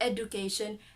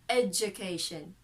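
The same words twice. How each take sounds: First: The middle consonant is a plain d sound. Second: The middle consonant is a j sound. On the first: The speaker calls it wrong. "not the D sound, and not the, the schwa sound, and not the oo sound. Not the education" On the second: The speaker calls it right. "The J sound"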